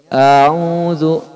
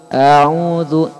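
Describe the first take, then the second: Both takes have the same delivery.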